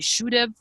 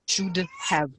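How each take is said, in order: First: 'Have' is reduced and joined onto 'should'. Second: Each word is said fully and separately. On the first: "when I say" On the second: "it means"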